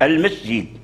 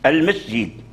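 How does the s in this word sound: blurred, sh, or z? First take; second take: z; z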